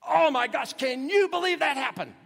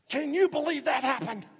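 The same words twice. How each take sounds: First: Even higher and louder, gushing; over-the-top amazement. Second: High, loud, astonished cry; amazed exclamation. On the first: Preacher showing how we repeat for emphasis, loud and high. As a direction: pile on the astonishment. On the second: Preacher acting out everyday amazement to the congregation, high and loud. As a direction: gush it like unbelievable news. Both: Shown as a demonstration. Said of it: "We say something similar".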